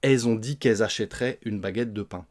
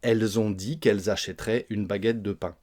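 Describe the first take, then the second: First: The L of 'elles' is dropped, S linked. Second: Every sound of 'elles' is fully pronounced. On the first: This is how people actually talk in France. "Ça donne en français parlé" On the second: This is how it sounds when read aloud. "si vous lisez, par exemple, vous allez bien prononcer tout cela"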